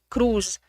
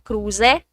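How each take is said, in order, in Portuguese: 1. A palavra termina sem o som da vogal final. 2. A palavra termina com som de vogal final. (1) "eles não falam o finalzinho da palavra" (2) "se era caneca, cruze"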